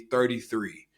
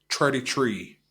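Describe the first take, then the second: First: It is said in the speaker's plain accent. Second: It is said in an imitated Irish accent.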